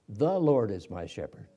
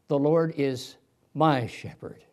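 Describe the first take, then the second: First: The stress is on the word the. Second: The stress is on the word my.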